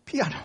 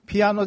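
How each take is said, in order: First: ピアノ in the Okayama dialect accent; ピアノ the way Okayama people say it. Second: Said in the usual way. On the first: Shown as a demonstration. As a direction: give ピアノ its Okayama pitch pattern, unlike the standard one. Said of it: "ピアノっていうアクセントで". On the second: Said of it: "岡山弁ではピアノ".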